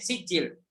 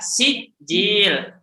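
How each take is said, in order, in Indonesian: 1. Vokalnya dibiarkan pendek. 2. Vokalnya dipanjangkan. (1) "Gitu saja, pendek" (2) "Nah, itu panjang"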